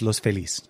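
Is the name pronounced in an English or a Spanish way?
Spanish. The name is pronounced with Spanish sounds. This is the original name of the place. "The Spanish way of saying it is"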